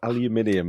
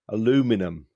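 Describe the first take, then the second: First: Five syllables, ending in a 'nium' sound. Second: Four syllables, ending in a plain 'num' sound.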